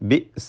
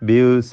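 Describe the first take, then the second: First: The glottal stop in the middle is clear. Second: The glottal stop in the middle is weak. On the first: The speaker calls it right. "ബിസ എന്ന് തന്നെ പറയണം" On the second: The speaker calls it wrong. "ബിസ എന്ന് പറയാൻ തെറ്റാണ്"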